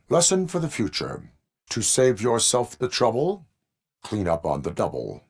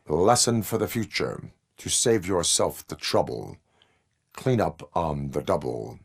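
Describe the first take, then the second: First: "Lesson for the future" pitched higher, "trouble" rising; lilting retake. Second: Said in the usual way. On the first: Acted. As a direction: lift "trouble" at the end, then drop on "double". Second take, higher and lilting.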